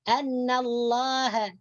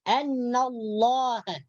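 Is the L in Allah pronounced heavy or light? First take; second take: light; heavy. First: The L of Allah is light and thin. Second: The L of Allah is heavy and thick. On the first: The speaker calls it wrong. "Jadi jangan dibaca" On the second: The speaker calls it right. "cara membacanya harus dibaca tebal"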